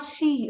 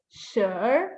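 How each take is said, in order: First: SHE with an ee vowel; mispronounced ten. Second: SURE as "shrr" with a rising r; correct SURE sound. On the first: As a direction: say SHE like the English pronoun. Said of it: "It's not she". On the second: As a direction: curl SURE into an r and let it rise. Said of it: "It's sure". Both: Shown as a demonstration.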